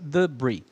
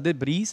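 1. O s final é mudo. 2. O s final é pronunciado. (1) "a gente pronuncia debris" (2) "a gente não fala debris"

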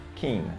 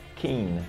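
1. É dito com sons do inglês. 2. É dito com sons do inglês.

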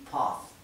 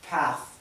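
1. Se dice con acento británico. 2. Se dice con un acento no británico.

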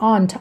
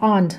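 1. พูดด้วยสำเนียงอังกฤษ 2. พูดด้วยสำเนียงอังกฤษ

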